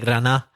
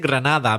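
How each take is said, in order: First: The 'd' sound before the final vowel is dropped. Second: The 'd' sound before the final vowel is pronounced. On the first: "not pronouncing the D" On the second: "You say Granada"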